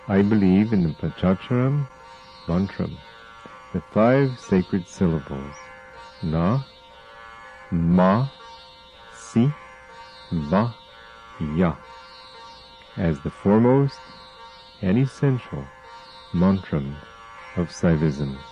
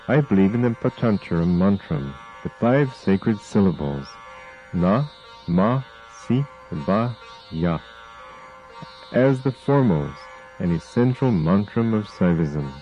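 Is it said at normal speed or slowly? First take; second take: slowly; normal speed. First: It is said slowly. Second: It is said at normal speed.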